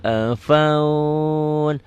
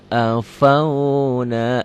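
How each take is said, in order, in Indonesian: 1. Kata itu berakhir terpotong, vokal terakhirnya dihilangkan. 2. Kata itu berakhir dengan vokal terakhirnya dibaca.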